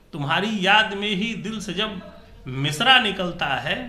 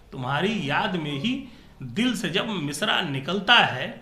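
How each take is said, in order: The two takes are said the same way.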